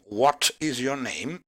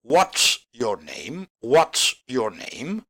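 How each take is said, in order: First: IS said in full in "what is your name"; "what is your name" uncontracted, with IS fully pronounced; full form of is. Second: "what's" as one slow word ending in S; contracted is. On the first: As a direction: keep "is" a separate word, rising on "name". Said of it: "la pronunciación arriba". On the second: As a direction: slowly model "what's", is shortened to an S. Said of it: "En cambio abajo". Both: Shown as a demonstration.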